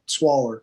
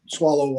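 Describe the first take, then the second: First: The word ends in a Kentucky-style 'er' sound. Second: The word ends in a standard 'oh' vowel. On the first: The speaker calls it wrong. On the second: The speaker calls it right.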